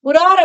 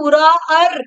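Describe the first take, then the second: First: The middle vowel is held for normal length. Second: The middle vowel is drawn out extra long.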